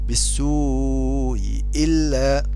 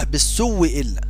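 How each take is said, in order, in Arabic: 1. الهمزة الأولى مسهّلة، لا تُنطق كاملة. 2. تصبح الهمزة واوًا مشددة قبل إلا. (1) "في المكسورتين تسهيل الاولى ... ولكنه مذهب ضعيف" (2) "فأبدلناها واوا مكسورة ثم ندغم التي قبلها فيها"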